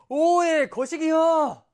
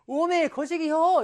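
First: High, loud Jeolla dialect outburst; mock hatred. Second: High, slow, drawn-out Jeolla gushing; mock adoration. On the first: Teacher shows how dialect says I hate you, mock hateful. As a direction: throw it out as hammed-up loathing. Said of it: "널 죽도록 미워해". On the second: Teacher shows how dialect says I love you, mock adoring. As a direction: stretch it out as hammed-up love. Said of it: "널 죽도록 사랑해". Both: Shown as a demonstration.

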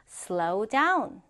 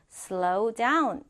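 Both takes have the same delivery.

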